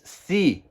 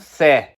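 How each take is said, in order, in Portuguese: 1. A vogal é um 'ee' longo. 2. A vogal é um 'eh' aberto. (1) "elas têm o som de I. Por isso que o verbo ver se diz se" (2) "e não se"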